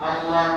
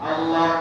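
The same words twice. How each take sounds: No difference in how they are said.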